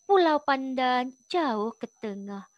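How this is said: The line is read with a soft, lilting melody.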